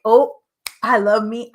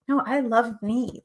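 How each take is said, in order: First: Mock gushing. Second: Said in the usual way. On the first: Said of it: "And I'm not like". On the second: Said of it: "I am like".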